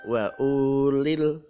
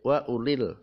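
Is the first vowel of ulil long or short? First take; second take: long; short. First: The first vowel of ulil is drawn out long. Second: The first vowel of ulil is kept short. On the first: The speaker calls it wrong. "Enggak boleh dibaca" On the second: The speaker calls it right. "bacanya pendek"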